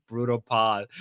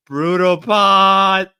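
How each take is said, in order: First: Said in the usual way. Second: Very slow, loud, higher; booming repeat. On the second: Pretend. Streamer repeating chat's phrase, booming and drawn out. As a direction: stretch both words into a big shout.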